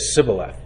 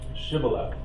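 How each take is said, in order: First: The word begins with a plain s sound. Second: The word begins with an sh sound. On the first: The speaker is not an Israelite. The speaker calls it wrong. "they would say Sibboleth" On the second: The speaker is an Israelite. The speaker calls it right. "Shibboleth with the dot"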